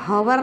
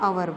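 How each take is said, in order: First: The word starts with an h sound. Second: The word starts with a vowel sound. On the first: The speaker calls it wrong. "हवर नहीं बोलते इसको" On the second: The speaker calls it right. "एच silent होता है इसलिए आवर बोलते हैं"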